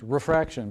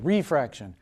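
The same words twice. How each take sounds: First: The word is said with ordinary, natural stress. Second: The word's opening syllable is given exaggerated emphasis. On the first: The speaker calls it right. "refraction is how it's pronounced" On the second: The speaker calls it wrong. "I kind of emphasize it as refraction"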